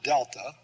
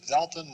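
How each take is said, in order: First: It begins with a hard d sound. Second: It begins with a soft th sound. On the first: The speaker calls it wrong. "not delta" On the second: The speaker calls it right. "Notice I said delta, ... this is a th sound, th as in the"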